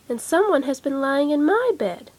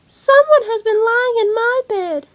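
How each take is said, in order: First: It is said in a middle-sized voice. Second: It is said in a little baby voice.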